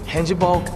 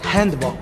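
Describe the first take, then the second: First: It is said with a Brazilian Portuguese pronunciation. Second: It is said with an English pronunciation. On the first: "em português" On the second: "Hand e ball. Deu handball"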